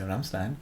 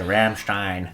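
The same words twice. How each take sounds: First: The name is pronounced the English way. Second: The name is pronounced the German way. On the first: "I think most people would say Rammstein" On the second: "the proper German way. But they wouldn't say Rammstein"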